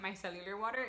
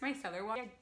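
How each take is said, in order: First: The first word has four syllables, with extra 'u'. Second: The first word has three syllables, no extra 'u'. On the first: The speaker calls it wrong. "why do I keep pronouncing it micellular water?" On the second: The speaker calls it right. "It's micellar water"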